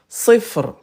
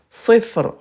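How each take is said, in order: Both takes have the same delivery.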